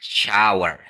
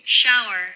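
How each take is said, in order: First: The word is said slowly and drawn out. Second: The word is said at normal speed. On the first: "Kalau kita pelanin" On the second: "pronounce yang benernya adalah kayak gini"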